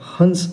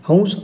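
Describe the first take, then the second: First: The nasal before the s sounds like n. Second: The nasal before the s sounds like v. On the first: The speaker calls it wrong. "असा नसावा" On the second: The speaker calls it right. "असाच असावा"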